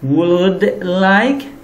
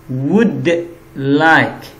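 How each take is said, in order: First: The L in would is pronounced. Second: The L in would is silent. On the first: The speaker calls it wrong. "bukan would like" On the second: The speaker calls it right. "tapi would like. Dia L-nya tidak diucapkan"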